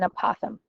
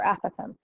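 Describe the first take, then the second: First: Apothem pronounced uh-POTH-um; apothem starting on a weak uh, then POTH-um; second-syllable stress. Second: Apothem pronounced AP-uh-thum; apothem opening like apple, AP-uh-thum; first-syllable stress. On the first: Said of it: "or apothem". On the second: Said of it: "however you wanna say it". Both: Shown as a demonstration.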